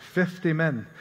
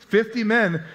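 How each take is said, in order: First: Lightly attempted Scottish accent; joking, half-hearted Scottish accent. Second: Said in the usual way. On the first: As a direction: try a hint of a Scottish brogue. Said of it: "I'm sure in a Scottish accent". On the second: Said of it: "No, okay".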